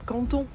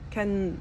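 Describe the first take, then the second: First: The middle T sound is clearly pronounced. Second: The middle T sound is dropped. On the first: The speaker calls it right. "il y a un T" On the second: The speaker calls it wrong. "ils prononcent pas les T au milieu des mots"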